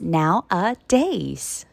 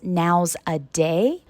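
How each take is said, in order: First: No s after now; s at the end. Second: An s sound follows now; no final s. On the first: The speaker calls it right. "The correct pronunciation is" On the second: The speaker calls it wrong. "Many students mispronounce this word as"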